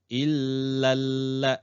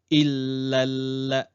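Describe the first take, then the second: Both takes have the same delivery.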